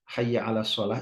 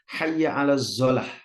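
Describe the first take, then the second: First: The last word begins with an emphatic s sound. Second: The last word begins with a z sound.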